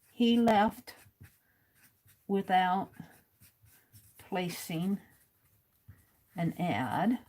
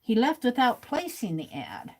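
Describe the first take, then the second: First: Writing-down pace. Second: Said in the usual way. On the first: Real, not acted. Host writing as fast as she can, halting dictation pace. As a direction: say it piece by piece as you write it. Saying words while writing them down.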